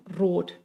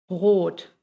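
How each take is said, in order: First: "rot" with a tongue-rolled R; Spanish R. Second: Long "rot" with R from the throat; German R. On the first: Teacher showing learners "rot" with a Spanish rolled R. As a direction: roll the tongue up front on "rot". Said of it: "enrolla y de ahí sale el sonido". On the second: Teacher contrasting with Spanish, throat R in "rot". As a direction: make the R of "rot" in the throat, no trill. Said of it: "de la garganta". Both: Shown as a demonstration.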